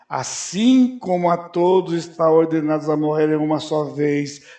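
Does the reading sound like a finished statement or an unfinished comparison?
unfinished comparison. It is read as an unfinished comparison leading on. It only sets up a comparison for the next sentence. The speaker calls it right. "Já viu uma entonação diferente?"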